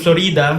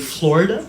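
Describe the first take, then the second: First: It is said with a Filipino English accent. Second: It is said with an American English accent. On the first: The speaker calls it wrong. "instead of saying" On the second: The speaker calls it right. "if you speak American, you have to say"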